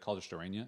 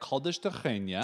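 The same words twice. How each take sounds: First: The name is said with an English R sound. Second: The name is said with a Portuguese R sound. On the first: "if you're like just talking to your English speaking friends, you just be like" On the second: "that is how you pronounce it. We're not doing a voice or anything"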